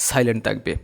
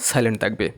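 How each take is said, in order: No difference in how they are said.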